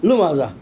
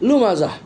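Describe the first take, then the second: No difference in how they are said.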